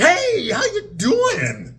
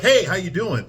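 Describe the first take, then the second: First: It is said in an overblown, hyperbolic way. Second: It is said in a plain, everyday way. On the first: This is sitcom acting, not how people talk. "On Friends, it's like" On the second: This is how people really talk. "when a normal person talks to somebody, they're like"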